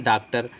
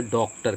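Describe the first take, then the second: First: Said in the usual way. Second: डॉक्टर with the rounded English aw vowel, dawktar; loanword o sound. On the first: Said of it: "इसको हम सीधे बोलते हैं डॉक्टर". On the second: Shown as a demonstration. Teacher to students, showing the borrowed vowel: डॉक्टर with open aw. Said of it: "आगत शब्दों में बोलेंगे".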